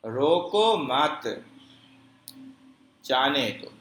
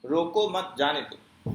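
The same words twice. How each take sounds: First: Slow, loud "روکو مت", long silence, then "جانے دو"; longer pause. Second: "روکو مت جانے دو" with barely any break; minimal pause. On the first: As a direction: stop firmly after "مت" before "جانے دو". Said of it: "سکتے سے زیادہ ٹھہراؤ". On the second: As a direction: keep the stop in "روکو مت جانے دو" as short as possible. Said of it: "تو یہ سب سے کم ٹھہراؤ ہوتا ہے". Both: Shown as a demonstration.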